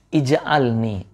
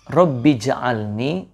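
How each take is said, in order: First: The word starts with an audible i vowel. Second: The word starts straight on the j sound. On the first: The word is read on its own. "kalau dipisah hamzahnya kan kebaca ya" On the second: The word is joined to the word before. "Kalau disambung"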